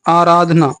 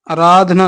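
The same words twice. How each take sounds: First: आराधना with a long opening aa; correct vowel. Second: आराधना with a short first a; wrong vowel. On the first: Teacher correcting students, आराधना starting on long aa. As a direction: lengthen the first vowel of आराधना. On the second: Teacher rejecting an error, आराधना starting on short a. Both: Shown as a demonstration. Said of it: "नहीं".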